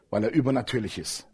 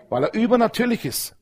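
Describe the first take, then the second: First: "übernatürlich" low and soft, falling at the end; quiet first take. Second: "übernatürlich" pitched high and proclaimed; raised repeat. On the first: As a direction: murmur "Weil er übernatürlich ist" lower. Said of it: "repeated louder". (leise und tief: „übernatürlich“) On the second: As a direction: lift "übernatürlich" up high and declare it. (hoch und verkündend: „übernatürlich“) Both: Shown as a demonstration.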